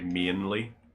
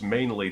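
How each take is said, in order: First: The word is said in a Northern Irish accent. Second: The word is said in an American accent. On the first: "whereas I say mainly, like "een," it's almost like an I A sound" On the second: "saying it like the other way feels more Americanized to me"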